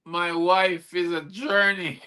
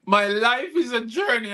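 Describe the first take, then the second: First: "My wife is a journey." with wife in place of life, slow; slip of tongue. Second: "My life is a journey." with life said clearly and firmly; corrected line. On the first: Poet replays his slip to the audience, "wife" for "life". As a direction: slowly say the blooper "My wife is a journey.". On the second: Poet corrects his slip for the audience, firm. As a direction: put the right word back, "life". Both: Shown as a demonstration. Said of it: "I nearly said".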